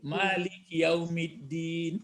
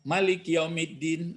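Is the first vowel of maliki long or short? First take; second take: long; short. First: The first vowel of maliki is drawn out long. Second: The first vowel of maliki is kept short. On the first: It names the owner of the day of judgement. "membaca mal, panjang dibacanya" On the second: It names the king of the day of judgement. "ini bacanya pendek"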